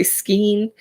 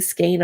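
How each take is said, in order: First: "skein" with a long ee vowel; SKEIN said as "skeen". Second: "skein" with a long ay vowel; SKEIN said as "skayn". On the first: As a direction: say "skein" to rhyme with green. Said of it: "I always say skein". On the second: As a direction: say "skein" to rhyme with rain. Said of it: "I started saying skein on here". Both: Shown as a demonstration.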